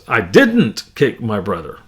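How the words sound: The stress falls on the word didn't. Other harm was done, but no kicking. "If I put the emphasis on the second word, didn't"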